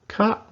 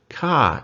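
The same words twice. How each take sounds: First: The syllable is said with a high tone. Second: The syllable is said without a high tone.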